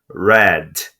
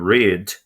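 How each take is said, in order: First: It is pronounced as the past-tense form. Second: It is pronounced as the present-tense form. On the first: It means read in the past. "Read, leu, lia" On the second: It means to read, now or habitually. "read, ler"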